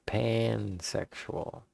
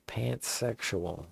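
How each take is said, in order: First: "pansexual" drawn out slowly, with no T; correcting to "pansexual". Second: "pantsexual" with an audible T before the S; misheard "pantsexual". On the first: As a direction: correct the mishearing with a slow, clear "pansexual". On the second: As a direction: say "pantsexual" like pants plus sexual. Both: Retold or imitated. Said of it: "No, I said pansexual".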